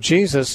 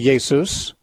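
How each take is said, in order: First: The name begins with a J sound. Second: The name begins with a Y sound. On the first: "Jesus is the English pronunciation" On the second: "in German the J is pronounced like a Y"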